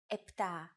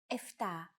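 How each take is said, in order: First: The word is said with a p before t. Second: The word is said with an f before t. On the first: This is the standard form. The speaker calls it right. "the standard pronunciation" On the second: This is the casual everyday form. The speaker calls it wrong. "especially in casual conversation, Greeks also use εφτά"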